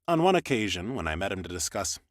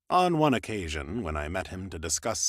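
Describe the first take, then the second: The two takes are said the same way.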